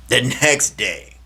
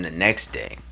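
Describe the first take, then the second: First: "the next day" slow, with NEXT higher; emphatic repeat. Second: Said in the usual way. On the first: Real, not acted. Storyteller turning to bad news, slow emphasis on "the next day". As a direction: stretch out "the next day," leaning on NEXT.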